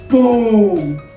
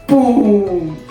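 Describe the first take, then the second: First: It is said in a low, deep voice. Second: The same.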